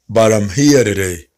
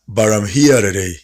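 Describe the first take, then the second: First: I am is joined into one contracted word. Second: The same.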